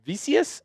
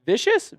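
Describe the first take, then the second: First: Vicious said as VEE-see-us, three syllables, softer, rising; retry "Vicious" as VEE-see-us with a rising question; second guess at a name. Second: Vicious said as VISH-us, like the word vicious, asked; first guess at a name. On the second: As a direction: try "Vicious" as VISH-us with a questioning lift. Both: Real, not acted. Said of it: "I hope I got Vicious right".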